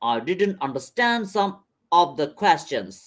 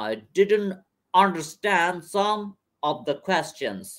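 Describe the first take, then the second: First: It is spoken in a British accent. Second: It is spoken in an American accent. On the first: "প্রথমে British accent." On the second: "আরেকবার American অ্যাকসেন্টে যদি পড়ি"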